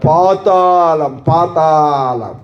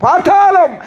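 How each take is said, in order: First: పాతాళం stretched very slow and low; slow ominous పాతాళం; drawn-out low. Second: పాతాళం high and punched; preacher's high పాతాళం; raised emphatic. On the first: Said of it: "పాతాళం. అక్కడ ఏడుపు". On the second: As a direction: lift పాతాళం high with force. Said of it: "అక్కడ ఏడుపు". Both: Shown as a demonstration.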